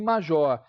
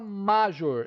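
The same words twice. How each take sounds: First: The stress is on the last syllable. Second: The stress is on the first syllable. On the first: The speaker calls it right. "a última sílaba é a tônica" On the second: The speaker calls it wrong. "A gente não fala major"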